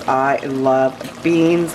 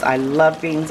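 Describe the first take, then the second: First: I love beans, very slowly, with beans drawn long. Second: Said in the usual way. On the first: Real, not acted. To viewers over the bean pot, drawn-out and slow. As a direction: savour every word as if tasting the beans. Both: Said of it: "repeated declaration of love for beans".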